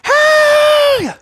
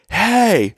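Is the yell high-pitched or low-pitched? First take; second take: high; low. First: The yell is a shrill, high-pitched scream. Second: The yell is low and forceful. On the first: This is the yell that actually came out. "like that, right? And so... so I yell this crazy high-pitched scream" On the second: This is the tough yell that was intended. "my yell wasn't"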